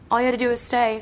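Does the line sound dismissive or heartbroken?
dismissive. It sounds flippant and dismissive, not hurt.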